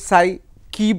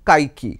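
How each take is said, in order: First: The name begins with an s sound. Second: The name begins with a k sound. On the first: Many people say it this way. "এটা অনেকে সাই কি বলছেন" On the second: Some other people say it this way. "আবার অনেকে বলছেন কাইকি"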